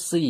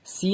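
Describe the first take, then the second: First: সি with a heavy, full Sad s, mouth rounded. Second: সি with a light, thin s; an everyday "see" for সি, not rounded; wrong thin s. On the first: Teacher giving the correct letter, সি full and rounded. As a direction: thicken the s of সি with rounded lips. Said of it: "সদ একটা পুর অক্ষর". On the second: Teacher naming the mistake for learners, সি with a thin s. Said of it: "সি নয়". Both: Shown as a demonstration.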